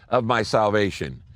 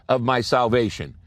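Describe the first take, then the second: No difference in how they are said.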